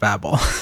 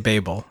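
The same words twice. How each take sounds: First: The word is said the American way. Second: The word is said the British way. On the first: This is how the speaker has always said it. "instead of Babel" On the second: This is how it is said in the UK. "in the UK, they say Babel"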